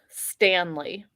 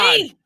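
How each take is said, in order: First: It is said in a plain, calm way. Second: It is said with anger in the voice.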